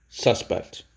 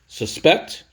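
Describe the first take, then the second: First: Suspect as SUS-pect, falling away after SUS; stress on first syllable. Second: Suspect as sus-PECT, pitch rising high on PECT; stress on second syllable. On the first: Teacher drilling the noun suspect for students, stress on the first syllable. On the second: Teacher drilling the verb suspect for students, stress on the second syllable. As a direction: punch the second syllable of suspect, ending on a rise. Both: Shown as a demonstration. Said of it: "there's two ways to say that word".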